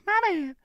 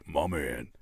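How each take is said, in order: First: Very high falsetto; squeaky mock voice. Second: Very low, soft put-on voice; deep mock voice. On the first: Host imagining another voice, squeaky mockery. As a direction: jump up into a tiny squeak. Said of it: "Imagine like". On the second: Host imagining another voice, deep mockery. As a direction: drop it right down, quietly. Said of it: "Imagine your voice is like this".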